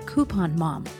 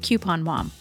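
First: Coupon is said the East Coast way. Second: Coupon is said in a non-East Coast way.

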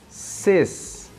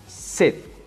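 First: The word ends with an S sound. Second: The word ends with a T sound. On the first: The speaker calls it wrong. "escrevemos ses" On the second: The speaker calls it right. "pronunciamos set"

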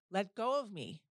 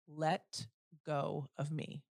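First: The voice is a loud, forceful scream. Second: The voice is firm at normal loudness. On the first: "So I screamed as loud as I possibly could" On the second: "in the firmest voice possible"

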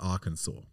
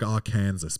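First: It is pronounced differently from its spelling. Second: It is pronounced the way it is spelled. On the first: The speaker calls it right. "but it's Arkansas" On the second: The speaker calls it wrong. "It looks like Arkansas"

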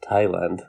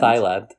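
First: The first syllable sounds like 'tie'. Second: The first syllable sounds like 'thigh'. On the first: The speaker calls it right. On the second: The speaker calls it wrong.

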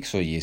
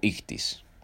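First: The word ends with an 'oye' sound. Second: The word ends with an 'is' sound. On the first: The speaker calls it wrong. "en realidad no se dice Ixoye" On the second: The speaker calls it right. "se dice Ictis"

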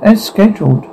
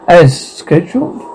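First: It is spoken in an American accent. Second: It is spoken in an English accent. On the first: "With American pronunciation" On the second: "with English pronunciation"

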